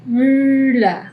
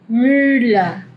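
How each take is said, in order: First: "mula" said as myla with a rounded ü; German ü. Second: Said in the usual way. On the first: Shown as a demonstration. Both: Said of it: "Ese es el sonido".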